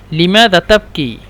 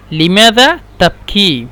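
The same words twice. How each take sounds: First: Said in the usual way. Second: Stretched vowels, words set apart; slow teaching model. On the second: Shown as a demonstration. Teacher repeating a question for learners, slow and separated. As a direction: ask it slowly, word by word.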